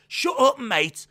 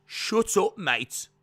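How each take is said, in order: First: Very loud, high-pitched Brummie impression; hammed-up shouted attempt, lacking depth; loud Birmingham mock command, falling at the end; Pete Dunne. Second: Loud Brummie impression with more depth; hammed-up Birmingham command, weightier and falling; Pete Dunne. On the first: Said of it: "You have to put a bit more, like, depth". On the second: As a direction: put depth into a loud mock promo voice. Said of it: "depth to my voice to get to Pete Dunne".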